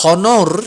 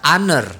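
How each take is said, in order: First: "honor" said with a spelled-out Indonesian h and a full o, as "HO-nor"; "honor" with the h pronounced, Indonesian style; wrong pronunciation. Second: "honor" with a silent h, said "ON-er"; "honor" in English style, starting on the vowel; correct pronunciation. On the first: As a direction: read "honor" the way it is written, h sounded. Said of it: "Jangan dibaca honor". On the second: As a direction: drop the h in "honor" and say it "on-er". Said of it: "tetapi dibaca honor". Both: Shown as a demonstration.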